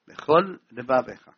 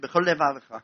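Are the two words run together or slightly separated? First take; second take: separated; run together. First: A slight gap separates the two words. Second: The two words are run together without separation. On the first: The speaker calls it right. "שיפריד רווח בין הדבקים" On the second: The speaker calls it wrong. "לא יגיד בכל לבבך"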